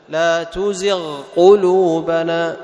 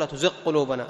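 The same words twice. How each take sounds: First: The gh sound is clear before the q. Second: The gh sound is merged into the q. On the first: The speaker calls it right. "لا تزغ واضح" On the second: The speaker calls it wrong. "لا تدغم، لا تقول"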